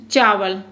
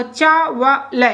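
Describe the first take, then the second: First: Said in the usual way. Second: चा व ल said slowly, one syllable at a time. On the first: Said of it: "ऐसे पढ़ो". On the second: Shown as a demonstration. Teacher sounding out a word for students, slowly by syllable. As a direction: sound out चा व ल in separate beats. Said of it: "ऐसे पढ़ो, चा व ल".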